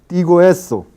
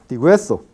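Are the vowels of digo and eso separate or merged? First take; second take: separate; merged. First: The vowels are said as separate syllables. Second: The vowels merge into one syllable.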